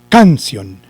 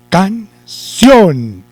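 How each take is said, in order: First: The stress is on the first syllable. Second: The stress is on the last syllable. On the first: The speaker calls it wrong. "Si llevara el acento en la sílaba can" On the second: The speaker calls it right. "corremos el acento eh, para la sílaba sion"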